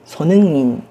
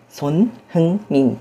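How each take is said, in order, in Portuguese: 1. O h é omitido e as palavras ficam juntas. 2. O som do h é mantido entre as palavras. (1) "os coreanos falam mais naturalmente Sonnenmin" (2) "o nome dele na verdade seria Son Hyunmin"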